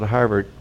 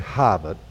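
First: It is said in a standard American accent. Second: It is said in a Boston accent.

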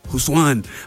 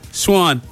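First: The name begins with an H sound. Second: The name begins with an SH sound. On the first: The speaker calls it wrong. "you'd think you pronounce it Huswan, but it's not Huswan" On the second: The speaker calls it right. "No, it's Charles Schwan"

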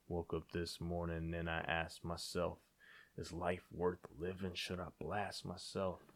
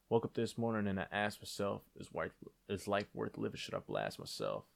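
First: It is said very slowly. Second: It is said at a normal pace.

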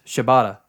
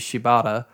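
First: The name is pronounced quickly and carelessly. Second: The name is pronounced carefully and fully. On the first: The speaker calls it wrong. "it's just Shibata ... because they're just rushing through the sentence" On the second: The speaker calls it right. "it should be Shibata"

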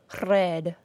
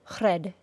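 First: The R is a rolled trill. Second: The R is a single quick tap. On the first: "or trill or roll our R sound like this" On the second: "we do not tap the R sound like this"

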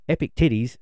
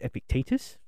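First: The name ends with the sound 'titties'. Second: The name ends with the sound 'tetus'. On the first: The speaker calls it wrong. "Wrong and bad" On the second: The speaker calls it right. "make sure I said it properly"

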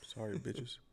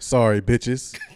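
First: It is said quietly, without projecting. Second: It is said loudly, projected into the mic. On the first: The speaker calls it wrong. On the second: The speaker calls it right.

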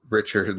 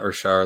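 First: The name is said with American pronunciation. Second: The name is said with French pronunciation. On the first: The speaker calls it right. "like Americans say it" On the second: The speaker calls it wrong. "like he's a member of the Montreal Canadiens"

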